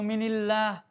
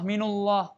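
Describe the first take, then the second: First: The n is followed by an i vowel. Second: The n is followed by a u vowel. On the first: "Tidak boleh kita baca" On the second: "dhammah minullah, nggak boleh"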